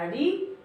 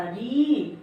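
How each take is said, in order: First: री with a brief i, pitch rising; short vowel. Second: री held long, falling at the end; long vowel. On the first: Teacher demonstrating the short matra on र, short री. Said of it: "छोटी की मात्रा". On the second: Teacher demonstrating the long matra on र, drawn-out री. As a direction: stretch the vowel of री. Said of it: "बड़ी की मात्रा". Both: Shown as a demonstration.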